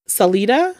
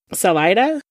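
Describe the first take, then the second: First: Salida said "suh-LEE-duh". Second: Salida said "suh-LY-duh"; Salida with long i. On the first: Unsure of the town's pronunciation, Salida as "suh-LEE-duh". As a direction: try Salida with a long "ee" in the middle, questioning. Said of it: "I believe is how it's pronounced". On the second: Offering the other pronunciation, Salida as "suh-LY-duh". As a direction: try Salida with the middle like "lie", questioning. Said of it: "if I'm saying it wrong". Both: Shown as a demonstration.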